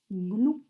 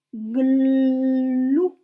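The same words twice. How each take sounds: First: Said in the usual way. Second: "Glou" loud, with the l held very long before ou; drawn-out syllable. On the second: Shown as a demonstration. Teacher dictating to first graders, drawn out loudly. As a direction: hold the l in "Glou" loudly, then release. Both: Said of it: "vous m'écrivez glou".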